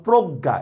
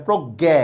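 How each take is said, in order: First: প্রজ্ঞা ending in doubled "g" and "a"; correct pronunciation. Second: প্রজ্ঞা ending in "gae", as "proggae"; wrong pronunciation. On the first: Teacher shows the word-final rule, প্রজ্ঞা as "progga". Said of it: "তাহলে এইটার উচ্চারণ হবে গ হসন্ত গ". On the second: Teacher shows what to avoid, প্রজ্ঞা as "proggæ". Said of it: "এভাবে হবে না". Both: Shown as a demonstration.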